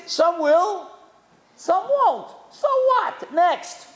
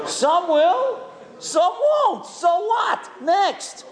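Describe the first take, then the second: First: Punchy motto. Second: Shouting the motto back, laughing; shouted motto. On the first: Retold or imitated. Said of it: "You know what he said fundraising is?". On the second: Real, not acted. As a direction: belt it out with a laugh. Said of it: "That's a great lesson".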